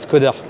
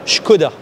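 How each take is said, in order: First: The name is pronounced in a non-Czech way. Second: The name is pronounced in the Czech way. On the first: The speaker calls it wrong. "pas Skoda" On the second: The speaker calls it right. "ce qu'il faut prononcer en tchèque"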